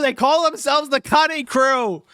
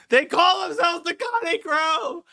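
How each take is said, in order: First: Hysterical squeal. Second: Falsetto wail. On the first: Hysterical repeated rant. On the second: Repeated slower, higher, falsetto. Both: Acted.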